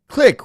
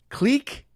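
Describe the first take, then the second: First: The word is said like 'click', with a short vowel. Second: The word is said like 'cleek', with a long vowel. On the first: It is the plain, unpretentious pronunciation. The speaker calls it right. "I say click" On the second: It is the fancy pronunciation. The speaker calls it wrong. "How do you pronounce that word?"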